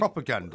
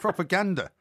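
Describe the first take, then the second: First: The stress is not on the third syllable. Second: The stress is on the third syllable. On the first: The speaker calls it wrong. "It's not propaganda" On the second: The speaker calls it right. "The emphasis is on the ander"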